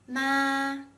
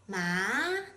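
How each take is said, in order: First: The pitch stays high and level. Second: The pitch rises from middle to high. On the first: It means mom. "a flat and high-pitched tone" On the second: It means hemp. "a rising tone"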